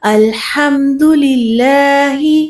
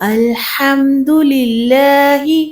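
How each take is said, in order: The two takes are said the same way.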